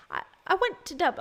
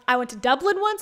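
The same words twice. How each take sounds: First: High, abandoned stab at Irish accent; tentative put-on Irish lilt; attempted Irish accent. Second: Said in the usual way. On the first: Shown as a demonstration. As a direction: try an Irish accent and break off. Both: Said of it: "not even trying to do the accent".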